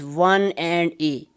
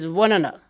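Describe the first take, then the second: First: Each word is said fully and separately. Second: The words are reduced and run together. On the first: The speaker calls it wrong. "native speakers won't speak, uh, speak it like this" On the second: The speaker calls it right. "in practical speech this this will be heard like this"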